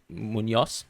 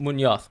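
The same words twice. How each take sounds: First: The z is said the Colombian way. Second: The z is said the Spanish way. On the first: "a Colombian might actually say Munoz" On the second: "I would say Munoz"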